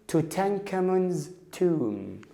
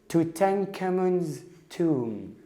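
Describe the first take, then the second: Both takes have the same delivery.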